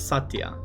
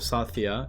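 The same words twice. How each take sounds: First: The name is said without a 'th' sound. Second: The name is said with a 'th' sound. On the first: This is the name adapted to Japanese. "it becomes Satya" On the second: This is the original form of the name. "there's no th sound like the"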